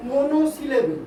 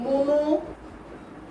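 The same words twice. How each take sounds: First: Said in the usual way. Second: "মনোসিলেবেল" drawn out in two parts, মনো then syllable; slow dictation. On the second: Shown as a demonstration. Teacher dictates a heading to pupils writing, slowly broken up. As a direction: dictate "মনোসিলেবেল" very slowly, pausing mid-word.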